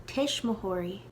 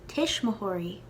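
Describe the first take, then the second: No difference in how they are said.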